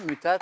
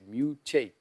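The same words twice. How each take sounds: First: It is pronounced as if it were Latin. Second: It is pronounced as an English word. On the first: The speaker calls it wrong. "comme si c'était du latin" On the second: The speaker calls it right. "c'était en anglais"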